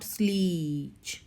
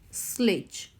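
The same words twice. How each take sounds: First: The vowel before the final sound is long. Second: The vowel before the final sound is short. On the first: The speaker calls it wrong. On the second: The speaker calls it right. "the sound of letter e here it's a short"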